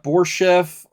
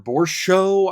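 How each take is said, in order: First: The name ends with an 'ev' sound. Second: The name ends with an 'ow' sound. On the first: "the Russian pronunciation of the C H E F is almost always Chev" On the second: "I don't know how they get Borshow out of it"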